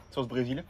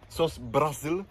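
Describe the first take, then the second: First: Said in the usual way. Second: "Brésil" said "Bra-zil", open a like Brasil; playful "Brésil" pronounced "Brazil"; Brazilian accent on Brésil. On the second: Pretend. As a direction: say "sauce Brésil" as "sauce Brazil", Portuguese style. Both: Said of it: "j'aime bien faire l'accent".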